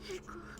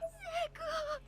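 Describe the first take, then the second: First: The name is said softly and quietly. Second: The name is said loudly and forcefully.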